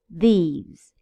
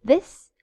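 First: These with a long falling ee; long ee vowel in these. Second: This short and rising, quick ɪ; short vowel in This. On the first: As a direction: draw out the ee in these. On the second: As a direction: clip the i in This short. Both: Shown as a demonstration. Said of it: "Listen to the difference".

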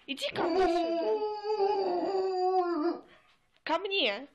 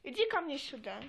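First: High, slow nagging call; shrill nagging grandma. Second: Said in the usual way. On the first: Acted. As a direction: drag it out like a scolding granny. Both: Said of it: "calling the dog".

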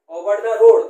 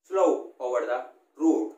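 First: ओवर द रोड called out loud, stressing the ओ; loud demo. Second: slow ओवर द रोड said lower and softer, lingering on the ओ; soft drawn vowel. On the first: Teacher repeats the phrase for students, loud and emphatic. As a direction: push the ओ sounds hard. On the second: Teacher models the long o vowel quietly for students. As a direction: let the ओ of slow ring gently. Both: Shown as a demonstration. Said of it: "ओ की ध्वनि निकल रही".

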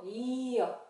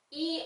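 First: "이어" as a drawn ee gliding into uh; consonant Y sound. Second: "이" as a simple ee; plain vowel shown. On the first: Teacher modeling consonant Y, gliding "이어". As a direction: stretch "이어" into a y glide. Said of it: "이어 이렇게 소리 낸다". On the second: Teacher showing what Y is not, bare ee on "이". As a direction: say "이" with no glide after it. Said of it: "이 아니고 이어". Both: Shown as a demonstration.

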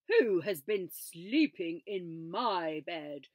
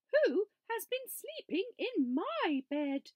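First: Slow, loud big-bear snarl; papa bear, slow and loud snarl; snarling Father Bear. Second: Higher, louder mama bear growl; a high-pitched mock growl; mama bear's mock growl, pitched up; growling Mother Bear. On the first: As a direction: snarl it slowly like a huge bear. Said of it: "he snarled". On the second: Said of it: "she growled". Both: A narrator's reading.

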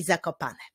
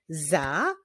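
First: Said in the usual way. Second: "Zakopane" as za, ko, pa, ne with long pauses; four separate beats in "Zakopane"; syllable by syllable. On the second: Shown as a demonstration. Teacher clapping the town name, "Zakopane" split into syllables. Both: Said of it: "wyklaszczmy sylaby w wyrazie".

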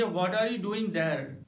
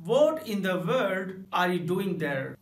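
First: Said in the usual way. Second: Slow "What in the world are you doing there?", stress on "What"; emphatic. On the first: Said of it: "normal तरीके से कहेंगे". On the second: Shown as a demonstration. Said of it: "जोर देकर बोले". ("What in the world are you doing there?" ज़ोर देकर)

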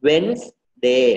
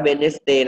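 First: "Wednesday" said as WENZ-day; WENZ, then day; correct two-syllable Wednesday. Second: "Wednesday" misread as wen-nes-day; wrong spelled-out Wednesday. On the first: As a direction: say "Wednesday" in two beats, silent d. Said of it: "เราอ่านว่า Wednes". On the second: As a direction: say "Wednesday" in three beats, sounding the middle e. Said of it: "ไม่อ่านว่า Wednesday นะ". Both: Shown as a demonstration.

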